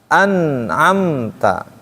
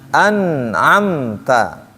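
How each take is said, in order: The two takes are said the same way.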